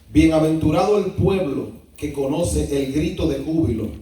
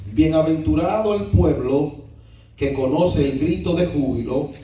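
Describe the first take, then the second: Both takes have the same delivery.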